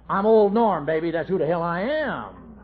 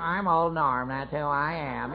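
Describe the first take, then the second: First: Swaggering boast. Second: Softer, slower sneering echo of his boast; mocking mimicry. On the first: Retold or imitated. Drunk husband announcing himself to his wife with swagger. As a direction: puff up and announce yourself to her. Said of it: "You say". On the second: Wife mimicking her drunk husband's boast, mockingly. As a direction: parrot his words back to mock him. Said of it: "how they mimic it".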